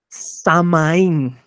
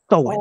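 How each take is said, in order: First: It is said with a clear m sound. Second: It is said with a w sound. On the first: The speaker calls it wrong. "si yo lo leyera así como en, en, en mexicano ... está mal pronunciado" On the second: The speaker calls it right. "esta fecha se lee Sowen"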